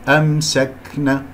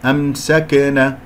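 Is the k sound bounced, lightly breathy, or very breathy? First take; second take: lightly breathy; bounced. First: The k sound has only a light breath. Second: The k sound is released with a bounce. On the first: The speaker calls it right. "تمام هكذا لطيف الهمس" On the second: The speaker calls it wrong. "قلقلتها وهذا خطأ"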